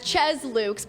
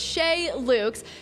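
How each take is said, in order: First: Chez is said with an English-style pronunciation. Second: Chez is said with a French pronunciation. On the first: The speaker calls it wrong. "I was mispronouncing it as" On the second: The speaker calls it right. "we're French here, so it's"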